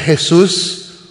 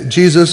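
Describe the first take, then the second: First: The name is said with a Spanish pronunciation. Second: The name is said with an English pronunciation. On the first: "Hispanics would say Jesus" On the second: "Now that sounds Jesus"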